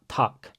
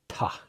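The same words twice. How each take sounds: First: No breathy h-sound comes before the k. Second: A breathy h-sound comes before the k. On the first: The speaker calls it wrong. "not tak" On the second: The speaker calls it right. "but tak"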